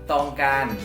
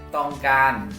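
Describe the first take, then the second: The two takes are said the same way.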